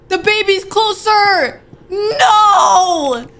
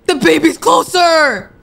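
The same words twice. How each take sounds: First: High, loud, slow crying shout; panicked shout. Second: Alarmed cry. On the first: Gamer yelling as the baby creeps closer, panicked shout. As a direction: scream it out in real panic. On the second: Gamer warning viewers the baby is closer, alarmed. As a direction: sound the alarm as it gets closer. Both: Real, not acted.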